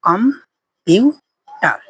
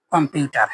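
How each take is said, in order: First: computer stretched very slowly into its three parts; slow syllable by syllable. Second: Said in the usual way. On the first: Shown as a demonstration. Teacher showing students the three syllables, stretched out slowly. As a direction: draw out computer slowly, com-pu-ter. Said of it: "তিনটা অংশ।". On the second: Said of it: "এই যে তিনটা অংশ হলো".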